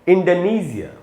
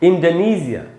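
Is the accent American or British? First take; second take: British; British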